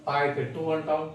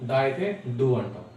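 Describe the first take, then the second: First: టూ said with a hard unvoiced retroflex t, like English "too"; crisp unvoiced టూ, tongue curled back; voiceless tu. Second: డూ said with a voiced retroflex d, like English "do"; voiced డూ, tongue curled back. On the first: Teacher shows students the voiceless reading: unvoiced టూ. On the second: Teacher shows students the voiced reading: voiced డూ. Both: Shown as a demonstration.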